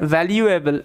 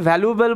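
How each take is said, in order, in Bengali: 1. 'l' এর পরে 'yoo' শব্দ আসে। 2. 'l' এর পরে সাধারণ 'oo' শব্দ আসে। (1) "এরকমভাবে উচ্চারণ করবে, বেশি ভালো লাগবে শুনতে" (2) "এটাকে অনেকে ভ্যালুয়েবল বলে, কিন্তু ভ্যালুয়েবল নয়"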